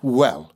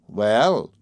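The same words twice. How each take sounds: First: Understated fury; a touch of fury; furious. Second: A touch of malice; drawn-out, needling well; malicious. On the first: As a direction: open the attack with a short, angry well. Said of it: "she began furiously". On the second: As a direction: say it with understated spite. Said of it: "she said maliciously". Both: A narrator's reading.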